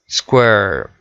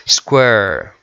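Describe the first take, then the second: Both takes have the same delivery.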